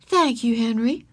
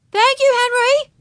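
First: Slightly raised, grateful teacher voice; sincere gratitude. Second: Put-on very high, loud little-girl call; calling after someone. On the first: Teacher thanking the boy who helped, grateful. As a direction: thank him and mean it. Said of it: "with real gratitude". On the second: Girl to the departing traffic boy, calling out. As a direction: sing out thanks to someone leaving. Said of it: "Ramona called after him". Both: A narrator's reading.

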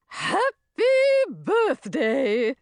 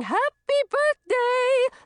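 First: High, drawn-out fairy greeting; high singsong creature voice; swamp fairy. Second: High, drawn-out celebratory cheer; loud, high birthday cheer; joyful shout. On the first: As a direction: put on a fairy voice for a birthday wish. Swamp fairy greets birthday girl. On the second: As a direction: shout it out like a crowd of excited fairies. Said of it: "Laughing and shouting". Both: A narrator's reading.

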